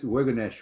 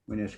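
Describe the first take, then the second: First: The word is said in its longer, full form. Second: The word is said in a shorter, contracted form. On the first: The speaker calls it wrong. "You hear this Weganesh" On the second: The speaker calls it right. "it's supposed to be really Wenesh"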